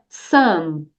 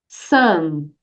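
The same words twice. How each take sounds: Both takes have the same delivery.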